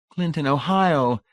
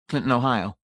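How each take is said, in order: First: Slow, high, louder delighted echo; repeating with vapid pleasure; bland delight. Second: Said in the usual way. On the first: A narrator's reading. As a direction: savour the name vacantly. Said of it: "retaining her bland delight". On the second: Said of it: "losing his accent".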